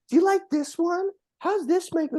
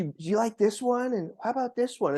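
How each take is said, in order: First: High, coy imitation of her modeling lingerie; teasing girlfriend. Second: A lighter, slightly higher echo of her coy question; teasing girlfriend. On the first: Retelling date showing off lingerie, high coy imitation. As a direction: mimic her showing off, much higher. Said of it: "starts modeling lingerie and coming out and like". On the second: Retold or imitated. Retelling date asking which underwear, mildly coy. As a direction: ask again coyly, less raised. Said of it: "so then she".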